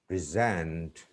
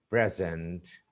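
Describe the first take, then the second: First: Weak first vowel in "present"; stress on second syllable. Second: "present" with a short e up front; stress on first syllable. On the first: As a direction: PRESENT as the verb, pri-ZENT. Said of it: "second syllable". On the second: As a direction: PRESENT as the noun, PREZ-ent. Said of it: "the stress is on the first syllable". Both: Shown as a demonstration.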